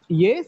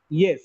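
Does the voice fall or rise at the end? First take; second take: rise; fall. First: The pitch rises from low to high. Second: The pitch falls from high to low. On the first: It asks a question. "As a question, ... with the rising tone" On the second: It answers a question. "answer to the question, ... Starts with higher note, it ends with lower note. It is a falling tone"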